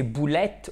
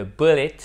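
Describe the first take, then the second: First: "boulette" said the French way, "boo-LETT"; "boulette" with French ou and stressed final "ette"; mispronounced as boulette. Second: "bullet" said the English way, "BULL-it"; "bullet" with English vowels, not French "ou-ette"; English pronunciation. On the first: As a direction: say the English word wrongly as French "boulette". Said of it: "si vous prononcez boulette au lieu de bullet". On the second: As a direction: stress the first syllable of "bullet", short second vowel. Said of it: "au lieu de bullet". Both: Shown as a demonstration.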